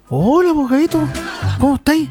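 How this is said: The greeting sounds casual and low-key.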